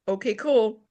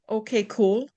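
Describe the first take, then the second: First: It sounds relaxed and lighthearted. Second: It sounds moody and suspicious.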